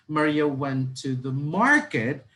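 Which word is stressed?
market. The stress is on market.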